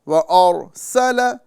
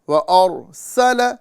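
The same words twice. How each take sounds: Both takes have the same delivery.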